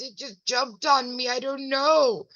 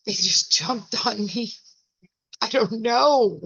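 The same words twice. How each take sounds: First: Higher, innocent bewildered shrug; lightly voiced puzzled old lady; imitating grandma. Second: Same line as grandma. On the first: Grandma covered in powder, higher innocent bewilderment. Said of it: "She goes". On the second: Shown as a demonstration. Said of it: "This is how I feel".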